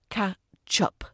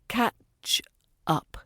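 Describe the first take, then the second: First: The stress falls on the word up. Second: The stress falls on the word catch. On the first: The speaker calls it wrong. "not catch up" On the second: The speaker calls it right. "stress the catch part rather than the up"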